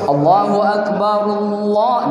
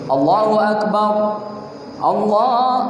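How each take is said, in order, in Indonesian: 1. Frasa ini berjalan terus tanpa jeda napas. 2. Jeda napas ada sebelum Allah kedua. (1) "Jadi A-nya tidak dibaca lagi nih" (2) "tapi bernapas, jangan tidak bernapas"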